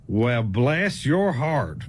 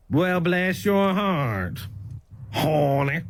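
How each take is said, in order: First: Slow and much lower, dripping scorn; drawn-out, low Southern put-down; condescending. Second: Slow, lower, catty bless your heart; sweet on top, insult underneath; drawn-out heifer tone; snide Southern. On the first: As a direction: say it like they're an idiot. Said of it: "That means you a stupid ass". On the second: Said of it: "if it kinda sound like this". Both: Shown as a demonstration.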